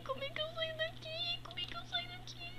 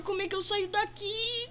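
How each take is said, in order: First: Much higher, thin squeaky voice. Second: Said in the usual way. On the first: Acted. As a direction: squeak the question up high. Repeats question in changed voice. (voz fininha e aguda)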